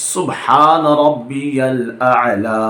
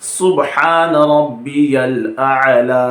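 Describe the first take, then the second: The two takes are said the same way.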